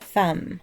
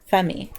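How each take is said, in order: First: The final E is silent. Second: The final E is pronounced. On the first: The speaker calls it right. "it is usually silent" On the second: The speaker calls it wrong. "if you say the E at the end"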